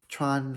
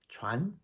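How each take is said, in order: First: The pitch stays high and level. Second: The pitch rises through the syllable. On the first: It means to wear or to penetrate. "first tone" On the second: It means to pass on or transmit. "Tron is a rising tone"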